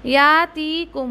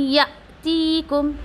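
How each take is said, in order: First: या ती कुम said without the hamza jolt, stretched; drawn-out या ती कुम with no catch; the mistaken या ती कुम; wrong reading. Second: यअतीकुम slow, with a sharp jolt on the hamza; tajweed demo. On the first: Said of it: "अगर झटका नहीं दोगे ना". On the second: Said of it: "ये क्या कर रही हूँ मैं". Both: Shown as a demonstration.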